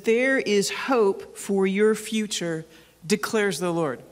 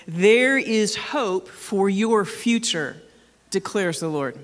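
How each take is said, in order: First: Slow solemn reading of the verse; deliberate pulpit reading; scripture reading. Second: Deliberate, emphatic second reading; scripture read again. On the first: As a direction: read each word slowly, like holy scripture. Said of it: "It says". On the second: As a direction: read it again slowly, with more weight. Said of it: "Let me read it for you again". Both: Acted.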